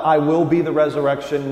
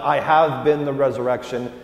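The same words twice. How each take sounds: First: "be" pushed louder as the wrong tense; stress on be. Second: "have" lifted as the past tense; stress on have. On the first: Pastor contrasting tenses for the congregation, stress on "be". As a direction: land on "be" to mark the future. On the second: Pastor contrasting tenses for the congregation, stress on "have". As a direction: lean on "have" to mark the past. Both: Shown as a demonstration.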